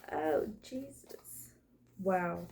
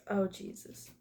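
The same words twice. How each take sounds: First: Whispered under your breath in awe; hushed, slow gasp of disbelief; awed whisper. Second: Said in the usual way. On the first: Real, not acted. Reacting to a card spread.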